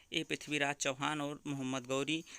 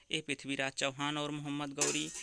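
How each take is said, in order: Both takes have the same delivery.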